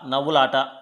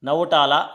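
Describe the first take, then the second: First: The 'la' syllable comes before 'ta'. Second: The 'la' and 'ta' syllables are swapped. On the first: The speaker calls it right. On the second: The speaker calls it wrong.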